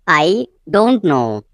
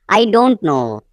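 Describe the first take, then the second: First: "I", a pause, then slow "don't know"; slow teaching take with "I" set apart; slow repeat. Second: Said in the usual way. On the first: Shown as a demonstration. Teacher repeating the translation for learners, slowly.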